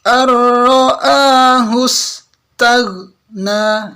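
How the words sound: The sounds are broken apart with small breaks. The speaker calls it wrong. "Contoh yang salah seperti ini... ya putus"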